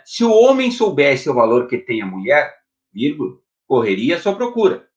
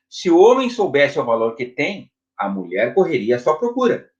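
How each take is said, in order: First: The pause comes after "mulher". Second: The pause comes after "tem".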